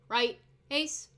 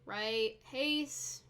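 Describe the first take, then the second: First: The command is called sharply with a snap. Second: The command is called flatly without a snap. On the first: The speaker calls it right. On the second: The speaker calls it wrong.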